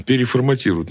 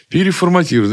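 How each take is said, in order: First: Said in the usual way. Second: High, loud, keen repeat; eager exclamation. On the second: Retold or imitated. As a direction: say it like a happy novice. Retelling his own naive click.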